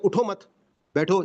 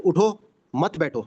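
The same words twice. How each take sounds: First: Group مت with اٹھو: don't get up, then sit; pause after مت. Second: "اٹھو" set apart, then "مت بیٹھو" as one phrase; group مت with بیٹھو: get up, don't sit; pause after اٹھو. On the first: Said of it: "اپنی صرف ٹون کو چینج کر لیں گے". ("اٹھو مت" ایک ساتھ، پھر وقفہ، پھر "بیٹھو") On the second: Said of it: "tone کو چینج کر لیں گے تو میننگ بالکل اپوزٹ". ("اٹھو" کے بعد وقفہ، پھر "مت بیٹھو" ایک ساتھ) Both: Shown as a demonstration.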